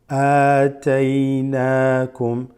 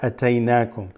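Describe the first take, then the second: First: The first vowel is stretched long. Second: The first vowel is short, not stretched. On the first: The speaker calls it right. "It's أَتَيْنَاكُمْ. ... there's the first extension" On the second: The speaker calls it wrong. "It's not أَتَيْنَاكُمْ"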